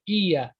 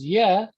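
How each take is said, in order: First: It starts with an ee sound, two syllables. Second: The initial ee is dropped, one syllable. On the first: The speaker calls it wrong. "That's how some people would say it" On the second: The speaker calls it right. "the e gets cut off and it just becomes yeah"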